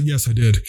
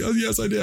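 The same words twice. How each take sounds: First: Said in the usual way. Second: Higher and softer, sheepish admission; owning up timidly to the sergeant; meek confession. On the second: Retold or imitated. Re-enacting his confession to the sergeant.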